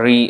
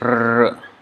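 First: The R is followed by an e vowel. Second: The R is said as a bare vowel sound. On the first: The speaker calls it wrong. "Sometimes it's pronounced as Re, but actually it's not the pure pronunciation" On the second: The speaker calls it right. "actually it's R"

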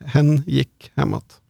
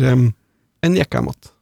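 First: The pronoun is said in full, with h. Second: The pronoun is reduced, with no h sound.

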